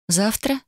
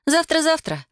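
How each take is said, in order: First: Слегка недоверчивый переспрос; повыше, с сомнением и подъемом в конце; недоверчиво. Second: Намного выше, насмешливое заверение; легко отмахнуться, посмеиваясь; со смешком. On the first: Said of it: "недоверчиво переспросила я". (недоверчивый вопрос) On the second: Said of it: "со смешком отозвалась Вайолет". (высоко, с легкой насмешкой) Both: A narrator's reading.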